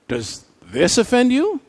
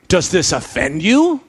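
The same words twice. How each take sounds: First: It is asked in a surprised tone. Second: It is asked in a pushing, challenging tone. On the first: The reaction was unexpected. "Maybe Jesus was surprised" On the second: The listeners are being pressed further. "I wonder if Jesus continued to push them"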